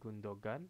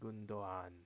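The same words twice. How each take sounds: First: A hard g sound is pronounced in the middle. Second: The g is silent and the vowels run together. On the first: The speaker calls it wrong. "bukan Gundogan" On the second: The speaker calls it right. "tapi Gundogan"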